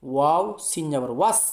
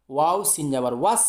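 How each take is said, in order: Both takes have the same delivery.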